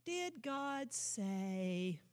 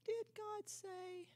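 First: Mocker's doubting echo. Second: Slow, soft, higher sly taunt; mocker's sly question. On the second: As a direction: draw the doubt out slowly and softly. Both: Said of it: "The voice of the mocker".

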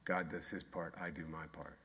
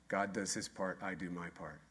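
First: Softer punchline. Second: Quiet punchline. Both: Shown as a demonstration. Answering own question with slogan.

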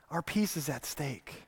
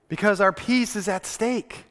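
First: Much softer, lower, letting it sink in; soft echo. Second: Said in the usual way. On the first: Shown as a demonstration. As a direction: repeat it almost under the breath. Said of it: "repeated after plain take". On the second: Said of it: "repeated softly".

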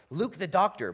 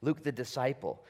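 First: Doctor lifted high and loud; stress on doctor. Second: Said in the usual way. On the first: Shown as a demonstration. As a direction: punch the word doctor. Contrasting two titles of Luke.

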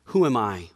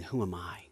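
First: Who am I? said out at normal strength; firm, open repeat of the question; full-voiced repeat. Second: Who am I? dropped to a near whisper; small, hushed voice of awe; awed hush. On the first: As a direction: lift it back up, asking aloud. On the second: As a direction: breathe the question softly in wonder. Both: Shown as a demonstration. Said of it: "you start thinking".

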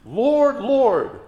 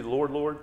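First: LORD, LORD high and loud, each drawn down; emphatic cry. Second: Said in the usual way. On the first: Retold or imitated. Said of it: "It's said for emphasis".

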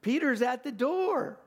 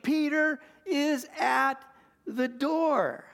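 First: Excited repeat. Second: Much higher and louder, slow, overjoyed; excited exclaim. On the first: Retold or imitated. Preacher relishing Rhoda's joyful cry, higher excited repeat. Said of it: "I love that". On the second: A narrator's reading. Servant girl Rhoda telling the house Peter is there, overjoyed cry. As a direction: burst out with joy at the news. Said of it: "And she exclaimed".

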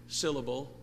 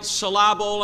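First: Said in the usual way. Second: "syllable" stressed on the second syllable, sil-LAH-bul; wrong-stress joke. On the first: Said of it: "getting the right syllable". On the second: Shown as a demonstration. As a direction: misplace the stress in "syllable": suh-LAB-ul. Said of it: "getting the right syllable on the right emphasis".

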